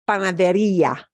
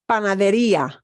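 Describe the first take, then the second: First: The i is stressed, split from the final a. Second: The i is stressed, split from the final a.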